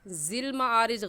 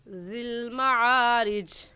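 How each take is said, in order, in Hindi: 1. पहला शब्द भुनभुनाती हुई z आवाज़ से शुरू होता है। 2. पहला शब्द नरम th आवाज़ से शुरू होता है। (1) "ज़ाल की जगह हम ज़ा नहीं पढ़ेंगे ... गलत है" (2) "सही है"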